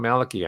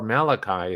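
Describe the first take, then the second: First: The name is said the Irish way. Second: The name is said the Old Testament way. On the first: "I think that's the Irish um, pronunciation" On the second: "if you prefer the more Old Testament uh, pronunciation"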